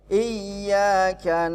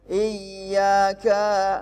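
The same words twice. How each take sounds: First: The final vowel is kept short. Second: The final vowel is drawn out long. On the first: The speaker calls it right. "Cukup di satu harokat saja ya. Maaf, satu ketukan saja" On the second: The speaker calls it wrong. "jangan sampai iyyaka, enggak boleh panjang ya"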